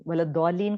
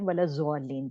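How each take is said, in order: First: "ولا الضالین" with emphatic daad, no z sound; correct Arabic daad. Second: "ولا الضالین" read Urdu-style as wala-zwalleen; common z mispronunciation. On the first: Teacher modelling the verse for students, heavy daad in "ولا الضالین". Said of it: "کو ہم پڑھتے ہیں". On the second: Teacher showing many people's misreading, z sound in "ولا الضالین". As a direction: say "ولا الضالین" with z in place of daad. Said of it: "ہم پڑھتے ہیں ولا الضالین بہت سارے". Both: Shown as a demonstration.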